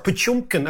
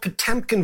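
First: The second vowel sounds like 'yo'. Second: The second vowel sounds like a plain 'e'.

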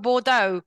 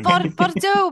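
First: The word is said with Cockney-style pronunciation. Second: The word is said with French-style pronunciation. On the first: The speaker calls it wrong. "I sound like, I don't know, Del Boy Trotter" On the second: The speaker calls it right. "I love saying that word so much"

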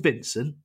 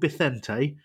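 First: The name is said as English Vincent. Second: The name is said with Spanish sounds. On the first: The speaker calls it wrong. "He's not called Vincent" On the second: The speaker calls it right. "He's called Bithente"

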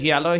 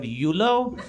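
First: The word starts with a 'yeh' sound. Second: The word starts with a 'yoo' sound. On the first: The speaker calls it right. "instead of yellow" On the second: The speaker calls it wrong. "he would pronounce the colors wrong"

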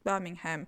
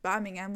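First: The h in the middle is pronounced. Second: The h in the middle is silent. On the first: The speaker calls it wrong. "und nicht Birmingham" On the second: The speaker calls it right. "Also das H ist stumm, man sagt Birmingham"

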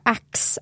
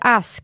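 First: The k sound comes before the s. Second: The s sound comes before the k. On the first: This is the form used among friends at home. "det är väldigt vanligt att säga axe" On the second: This is the standard form, not used among friends. "säger man inte ask"

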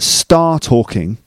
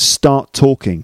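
First: The first t is dropped with no gap. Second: The two t sounds merge into one t. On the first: The speaker calls it wrong. "it's not star talking" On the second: The speaker calls it right. "create just one t sound"

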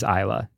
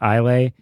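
First: The word ends with an 'uh' sound. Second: The word ends with an 'ay' sound. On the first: The speaker calls it right. "It is Isla. That is how you pronounce it" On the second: The speaker calls it wrong. "People might try to pronounce it Islay"

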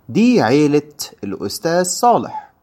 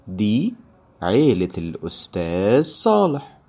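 First: The sentence is read at a faster pace. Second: The sentence is read at a slower pace. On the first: "If this was too fast for you" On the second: "I will read it slower this time"

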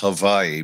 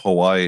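First: It is said with the Polynesian pronunciation. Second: It is said with the usual English pronunciation.

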